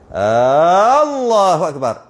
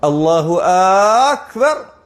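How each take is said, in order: First: The first vowel of Allah is drawn out long. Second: The first vowel of Akbar is drawn out long. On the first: It asks whether God is great. "Adakah Allah Maha Besar?" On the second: It asks whether God is the greatest. "Ataupun dekat akbar"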